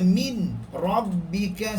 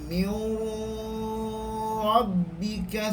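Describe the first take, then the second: First: A clear n sound is heard before r. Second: The merged sound carries a nasal hum. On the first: "Ataupun baca min rabbika, salah" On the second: "Jangan baca mir rabbika, salah"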